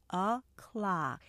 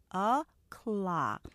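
Both takes have the same delivery.

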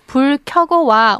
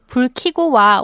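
First: The verb is said with the vowel 'yeo', kyeogo. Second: The verb is said with the vowel 'i', kigo. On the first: The speaker calls it right. "you should say" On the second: The speaker calls it wrong. "people often say"

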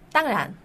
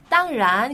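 First: The word is said casually, in a relaxed way. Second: The word is said carefully, with full tones. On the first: The speaker calls it right. "그냥 땅란" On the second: The speaker calls it wrong. "그렇게 안 하고"

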